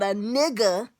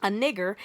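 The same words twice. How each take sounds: First: "nigga" ending in an open A, no R; soft A ending. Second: "nigger" with a sounded R at the end; hard R ending. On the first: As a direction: drop the R, end "nigga" on A. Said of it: "But a nigga is supposed to be". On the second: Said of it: "N I G G E R". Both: Shown as a demonstration.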